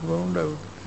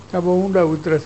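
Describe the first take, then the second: First: "બહુ ઊંડા ઉતરે છે" said much softer, fading to a murmur; hushed echo. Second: Said in the usual way. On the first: Retold or imitated. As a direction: let the rumour die away, soft as an echo. Rumour repeated, fading away. (ધીમા, ઓસરતા અવાજે "બહુ ઊંડા ઉતરે છે")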